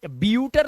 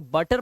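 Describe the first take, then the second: First: The first syllable sounds like 'byoo'. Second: The first syllable sounds like 'buh'. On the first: The speaker calls it wrong. "इसे ब्यूटर तो नहीं पढ़ते" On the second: The speaker calls it right. "इसे बटर पढ़ते हैं"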